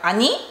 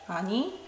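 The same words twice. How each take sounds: First: It is openly rude and harsh. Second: It is mildly sassy but still friendly.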